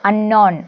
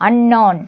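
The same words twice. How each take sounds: No difference in how they are said.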